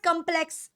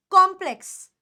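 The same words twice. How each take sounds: First: Complex with a weak "kum" first syllable; mispronounced vowel. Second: Complex with a strong, open "KOM" start; open O sound. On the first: Teacher shows students the mistake, complex said "kum-plex". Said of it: "it is not complex". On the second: Teacher corrects the class, complex said firmly as "KOM-plex". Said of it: "it is complex". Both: Shown as a demonstration.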